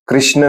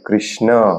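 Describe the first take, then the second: First: The word ends on the final consonant. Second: The word ends with a short final vowel. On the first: The speaker calls it wrong. "कृष्ण नाही" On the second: The speaker calls it right. "त्याला तुम्ही ओढलं पाहिजे थोडस"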